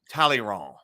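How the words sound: The name is said with a French pronunciation. "they would occasionally hit a French pronounced word"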